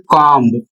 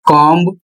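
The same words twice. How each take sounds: First: कॉम्ब again with the b pronounced at the end; wrong pronunciation. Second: कॉम्ब with the final b sounded; wrong pronunciation. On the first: Teacher repeats the wrong version for students. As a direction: sound the b in कॉम्ब deliberately. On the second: Teacher demonstrates how students wrongly say comb. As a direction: say कॉम्ब as "comb-b", b clearly heard. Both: Shown as a demonstration. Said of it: "यह गलत है".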